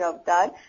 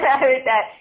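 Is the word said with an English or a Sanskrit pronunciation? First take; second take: Sanskrit; English. First: The word is pronounced the original Sanskrit way. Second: The word is pronounced the usual English way. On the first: The speaker calls it right. "I make sure that I'm pronouncing Avatar" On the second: The speaker calls it wrong. "It's not Avatar"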